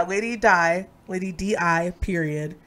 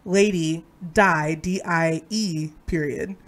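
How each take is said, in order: First: "D I" as separate letters, then "period"; spelling out. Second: "D I E" slowly, letter by letter; slow spelling out. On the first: Reader clarifying the first spelling, spelling out "D I". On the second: Reader clarifying the pun, spelling out "D I E" slowly. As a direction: draw out "D I E", then drop on "period". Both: Shown as a demonstration. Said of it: "spell out the last two lines".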